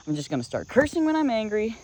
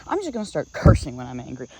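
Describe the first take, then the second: First: Louder repeated threat. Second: Angry threat. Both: Retold or imitated. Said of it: "I yelled at him".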